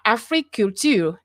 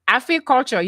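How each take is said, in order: First: It is said with a French accent. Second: It is said with an English accent.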